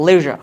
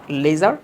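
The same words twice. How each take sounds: First: "লেজার" as LEH-zhuh, loud and falling; short, loud LEH-zhuh for "লেজার"; correct zh pronunciation. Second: "লেজার" as LAY-zar, final r sounded; rejected z version of "লেজার"; wrong z pronunciation. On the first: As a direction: punch "লেজার" with buzzed zh, r dropped. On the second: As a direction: say "লেজার" with plain z, rising. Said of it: "not লেজার". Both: Shown as a demonstration.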